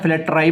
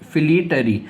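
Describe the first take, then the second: First: It starts like 'flat' and ends in 'rye'. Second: The first syllable sounds like 'fleet'. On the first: The speaker calls it wrong. "या फ्लैटराई बोलते हैं" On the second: The speaker calls it right. "सही उच्चारण है फ्लीट अर ई"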